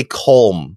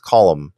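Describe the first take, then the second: First: "column" said as one syllable, "kohlm"; old mispronunciation. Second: "column" said in two syllables, "KOL-um"; corrected pronunciation. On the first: Retold or imitated. Host admitting the first attempt at the name, "column" pronounced "kohlm". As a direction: say "column" with a long O and no second vowel. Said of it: "I did say column". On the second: Shown as a demonstration. Host passing on a listener's correction, "column" pronounced "KOL-um". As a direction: say "column" with a short open O, then "um". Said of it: "say it is pronounced column".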